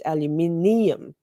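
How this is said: It is said the Australian way, five syllables.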